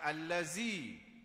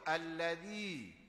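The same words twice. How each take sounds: First: The middle consonant is a buzzing 'z' sound. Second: The middle consonant is a soft 'th' sound. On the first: The speaker calls it wrong. "bukan allazi" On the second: The speaker calls it right. "Sedangkan situ allazi"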